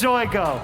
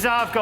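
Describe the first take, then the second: First: The name is said as Zoigo. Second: The name is said as Zavgo. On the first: The speaker calls it wrong. "I was told that it's Zoigo" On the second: The speaker calls it right. "It's Zavgo"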